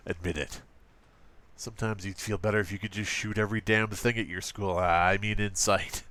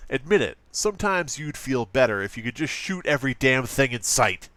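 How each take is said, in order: First: Understated parody of an edgy ad, lower. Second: Hammed-up edgy ad read. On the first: Acted. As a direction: read the slogan low with a mock slip. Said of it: "I keep doing this voice". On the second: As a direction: lean into a mock-extreme nineties ad voice. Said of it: "hard not to go into that voice".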